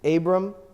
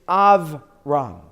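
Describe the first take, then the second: First: It is said the common English way. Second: It is said the Hebrew way. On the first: "What we oftentimes say is Abram" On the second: "But in Hebrew, it's Avram"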